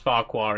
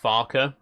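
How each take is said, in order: First: The second syllable sounds like 'kwar'. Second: The second syllable sounds like 'ker'. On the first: This is the pronunciation used in the TV series. "it's pronounced Farquhar in the T V series" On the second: This is the pronunciation the original author intended. "it's actually supposed to be pronounced Farker"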